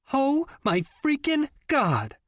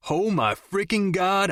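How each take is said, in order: First: Much higher, slow, squealing shout of delight; excited shout. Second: Higher, slow, lightly imitated squeal; mocking Jenny. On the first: A narrator's reading. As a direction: scream it out, thrilled to see your friend. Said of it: "Jenny shouted". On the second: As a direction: tease by parroting her excitement.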